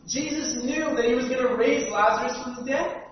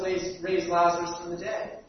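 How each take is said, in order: First: Louder, with the stress falling on "dead"; emphatic repeat. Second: Said in the usual way. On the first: Shown as a demonstration. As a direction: lean into "dead" on the second time round.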